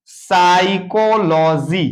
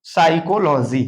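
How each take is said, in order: First: psychology drawn out syllable by syllable; very slow psychology, the p silent and the ending held up; slow syllable breakdown. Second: Said in the usual way. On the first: Shown as a demonstration. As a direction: stretch each part of psychology for learners. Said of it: "देखेंगे". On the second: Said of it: "तो इसको हम पढ़ेंगे क्या?".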